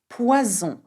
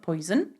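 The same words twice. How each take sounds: First: It is said with French sounds, like pwazon. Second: It is said with English sounds, like poyzun. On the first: The speaker calls it right. "So it goes p, wa, z, on" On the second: The speaker calls it wrong. "not poison. I know you've got this word in English"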